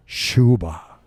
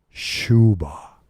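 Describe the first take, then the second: No difference in how they are said.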